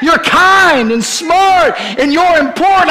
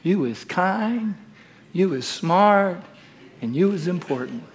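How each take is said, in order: First: High, loud and slow, ringing out; preached affirmation. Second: Almost whispered, very gentle; tender nanny voice. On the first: Preacher proclaiming the nanny's words, slow ringing call. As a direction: proclaim it over the room. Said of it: "Evelyn saying". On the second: Ebeline to the little girl in her lap, soft tender words. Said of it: "and she says". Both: Acted.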